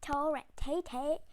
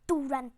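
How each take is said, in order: First: The name is said as Torrente. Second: The name is said as Torrent. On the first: The speaker calls it right. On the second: The speaker calls it wrong.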